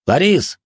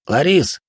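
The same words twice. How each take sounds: First: Loud call down the corridor. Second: Higher call from behind. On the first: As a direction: call after her from a distance. Runs out calling her. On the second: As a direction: call after her as she leaves. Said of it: "раздался голос у неё за спиной". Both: Acted.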